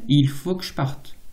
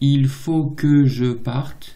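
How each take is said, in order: First: More of the E sounds are dropped. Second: Every E sound is pronounced in full.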